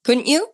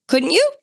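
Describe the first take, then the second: First: Said in the usual way. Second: Higher insistent repeat. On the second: Acted. Host repeating her question to listeners, higher and eager.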